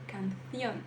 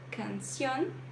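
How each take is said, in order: First: The c is pronounced as a lisped th sound. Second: The c is pronounced as a plain s sound. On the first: "você dá uma, uma prendida na letra C" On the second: "ao invés de, de pronunciar canción"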